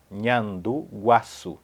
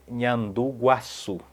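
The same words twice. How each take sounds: The two takes are said the same way.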